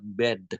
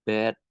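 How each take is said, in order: First: The final d is released hard and clearly. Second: The final d is softened and barely released. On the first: "dia langsung, eee, jelas banget" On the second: "deh-nya di di dilembutin jadi bed"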